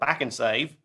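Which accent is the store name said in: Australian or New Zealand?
Australian. It is said in an Australian accent. "in Australia, it'd be like"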